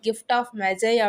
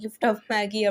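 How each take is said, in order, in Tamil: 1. Magi என்பது மென்மையான j ஒலியுடன் சொல்லப்படுகிறது. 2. Magi என்பது கடினமான g ஒலியுடன் சொல்லப்படுகிறது. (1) "கிஃப்ட் ஆஃப் மெஜை அப்படின்னு சொல்லணும்" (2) "ஸ்கூல் டேஸில் படிக்கும்போது ... எப்படி ப்ரொனவுன்ஸ் பண்ணியிருப்போம்"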